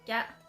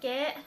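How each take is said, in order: First: The word has a changed local vowel. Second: The word has its standard vowel. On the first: "I would say" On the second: "Instead of saying"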